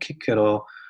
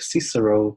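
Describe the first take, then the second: First: The name is said with Latin pronunciation. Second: The name is said with English pronunciation. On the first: "in Latin, you pronounce like" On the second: "in English it's like"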